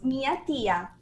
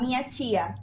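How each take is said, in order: First: The word tia starts with a plain t. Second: The word tia starts with a ch sound. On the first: This is how it is said in Recife. "aquí donde vivo decimos mi tía" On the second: This is how it is said elsewhere in Brazil. "en otros lugares de Brasil, algunos otros lugares dicen"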